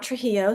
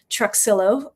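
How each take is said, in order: First: The X is not sounded as 'ks'. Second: The X is sounded as 'ks'. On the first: The speaker calls it wrong. "not Trujillo" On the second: The speaker calls it right. "they pronounce the X, so Truxillo"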